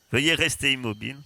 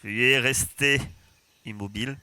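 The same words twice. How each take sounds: First: Metallic drone announcement; robot voice. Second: Cold metallic drone voice; robot voice. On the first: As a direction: repeat it like a machine, louder. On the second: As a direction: speak like a flat machine announcement. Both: Acted. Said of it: "Vous entendez une voix métallique".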